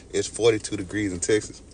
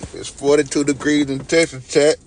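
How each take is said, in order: First: Said in the usual way. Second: Louder and higher, proclaiming "forty-two degrees"; loud announcement. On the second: Shown as a demonstration. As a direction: shout the news to chat. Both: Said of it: "repeats the line".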